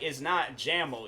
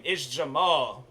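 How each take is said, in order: First: Jamal said as JAM-ul, first syllable stressed; mispronunciation. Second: Jamal with stress on the second syllable, juh-MAHL; correct pronunciation. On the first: Quoting his friend's mistake with his middle name, corrective. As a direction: say Jamal to rhyme with camel. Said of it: "how to pronounce my middle name". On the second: Telling his friend how his middle name goes, corrective. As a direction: draw out the end of Jamal, juh-MAAHL. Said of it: "tell me how to pronounce my middle name". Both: Retold or imitated.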